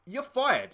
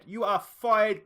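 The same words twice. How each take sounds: First: Higher and louder snap; firing. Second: Each word slow and louder, You are fired spelled out; slow emphatic firing. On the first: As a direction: sack him on the spot. Boss firing his manager. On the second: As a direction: hammer it home word by word. Boss repeating the firing. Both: Pretend.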